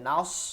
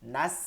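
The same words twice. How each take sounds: First: The s sound is heavy and thick. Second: The s sound is light and thin. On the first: The speaker calls it wrong. "এইভাবে কিন্তু করা যাবে না, মারাত্মক ভুল হবে।" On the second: The speaker calls it right. "একদম চিকন।"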